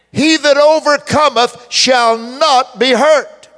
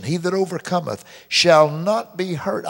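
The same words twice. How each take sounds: First: Loud, slow, high proclamation; full-force preacher declaring scripture; preaching at full force. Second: Not leaned on in "shall not be hurt"; calm reading that leans on not; stress on not. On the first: Acted. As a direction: proclaim the verse to the crowd. Preaching the verse. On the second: Shown as a demonstration. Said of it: "put that emphasis".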